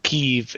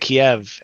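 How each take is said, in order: First: The city name is said the Ukrainian way. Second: The city name is said the older English way. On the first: This is how the city's own people say it. "this is the Ukra- Ukrainian way to say it" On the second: This is the form long familiar to the speaker. "I've always known it as Kiev"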